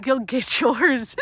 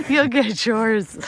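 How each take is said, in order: First: Slow eerie ghost voice threatening; spooky threat. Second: Said in the usual way. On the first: Pretend. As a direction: drag it out like a vengeful ghost.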